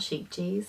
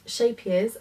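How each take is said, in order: First: The name is said like Sheep Cheese. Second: The name is said as Shapier's. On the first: The speaker calls it wrong. "not Sheep Cheese like I say it" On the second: The speaker calls it right. "apparently that's how you say it"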